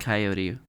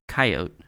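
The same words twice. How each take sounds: First: It is said with a general, non-regional pronunciation. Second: It is said with a Midwestern regional pronunciation.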